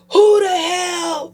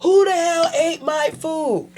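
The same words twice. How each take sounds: First: High, loud, slow yell; outraged shout. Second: Raised voice. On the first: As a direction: shout it at the whole house. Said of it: "all you say is". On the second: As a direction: call the whole house out over the food. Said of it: "anybody else would raise their voice". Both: Retold or imitated.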